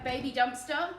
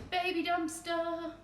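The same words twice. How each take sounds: First: Said in the usual way. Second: High, drawn-out cutesy voice; cutesy cooing. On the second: Real, not acted. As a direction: coo it slowly like a pet name. Cooing name of cute tiny dumpster.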